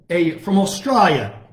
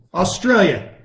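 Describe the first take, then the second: First: "Australia" said with a broad Aussie "ah", Austrahlia; a shaky try at an Australian accent on "from Australia"; weak Australian accent that drifts a little British; attempted Australian accent. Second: Said in the usual way. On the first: Shown as a demonstration. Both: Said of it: "Can't do a very good Australian accent".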